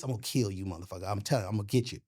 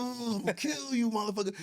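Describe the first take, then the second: First: Quiet menace. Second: Mock tough threat. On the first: Retold or imitated. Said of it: "I'm like, when I learned this". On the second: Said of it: "You're like".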